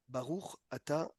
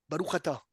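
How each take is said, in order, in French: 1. Chaque mot est prononcé clairement et séparément. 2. Les deux mots sont liés en un seul. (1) "Comme ça doit être fait, mot à mot" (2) "collé"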